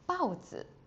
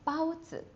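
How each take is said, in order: First: The first syllable falls sharply from high to low. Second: The first syllable stays high and flat. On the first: It means a leopard. "that become a leopard" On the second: It means a steamed bun. "that is the yummy pao"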